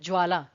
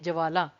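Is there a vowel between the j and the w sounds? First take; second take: no; yes. First: The j joins straight onto the w sound. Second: A short a vowel follows the j sound. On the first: "ज्वाला में हमने ज जो है ना बहुत जल्दी बोला" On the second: "ज के साथ अ का स्वर है"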